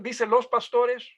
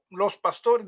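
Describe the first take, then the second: First: Slow question, "los" pushed up and held; stress on los. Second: Said in the usual way. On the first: Shown as a demonstration. Teacher quizzing class, weight on "los". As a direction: lean hard on "los" to quiz the class. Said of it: "¿Se encuentra los".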